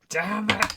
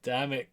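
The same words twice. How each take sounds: First: "Damn it" pitched up in frustration; frustrated outburst. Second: Softly cursed "Damn it"; muted frustration. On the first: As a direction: let "Damn it" burst out higher. Frustration repeated, bursting out. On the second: Frustration at session cliffhanger. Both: Real, not acted.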